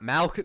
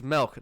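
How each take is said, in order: First: The vowel sounds like a short a. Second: The vowel sounds like a short i. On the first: The speaker calls it wrong. "not milk, ... people sometimes say with an A" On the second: The speaker calls it right. "It's milk"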